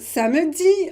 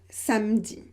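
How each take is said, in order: First: The middle vowel is pronounced. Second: The middle vowel is dropped.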